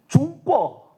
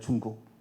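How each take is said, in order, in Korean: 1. 둘째 음절은 열린 모음으로 끝나요. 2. 둘째 음절은 k 소리로 끝나요. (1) "이렇게 국을 꿔라고 발음하죠" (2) "중국이잖아요"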